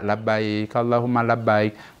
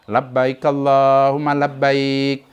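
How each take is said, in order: First: It is recited at an ordinary, moderate volume. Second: It is recited louder and with lively energy. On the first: This is how a woman should recite it. "dibaca biasa-biasa saja" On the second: This is how a man should recite it. "sedikit dikeraskan. Labbaik Allah, semangat"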